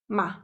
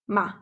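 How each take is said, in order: The two takes are said the same way.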